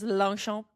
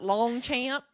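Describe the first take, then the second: First: It is said with a French pronunciation. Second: It is said with an American Midwestern pronunciation. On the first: This is the confirmed correct way. The speaker calls it right. "It is Longchamp" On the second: This is the way a Midwesterner would say it. The speaker calls it wrong. "not Longchamp, like my Midwestern ass"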